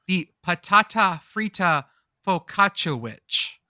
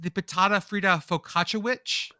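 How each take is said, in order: First: It is said slowly, each word hit hard. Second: It is said at normal speed.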